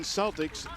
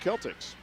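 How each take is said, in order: First: The word begins with a soft s sound. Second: The word begins with a hard k sound. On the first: This is how the Boston team's name is said. "even though it looks like Boston Celtics" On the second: This is how the school says its name. "that C is a hard K sound and is pronounced Celtics"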